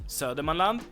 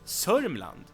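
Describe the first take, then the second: First: The name is said in full with all syllables. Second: The name is shortened, dropping middle sounds.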